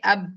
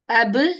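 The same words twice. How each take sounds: First: The final b stops flat without any bounce. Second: The final b is released with an echoing bounce. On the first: The speaker calls it wrong. "Don't say ab" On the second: The speaker calls it right. "I have pronounced the jerking sound"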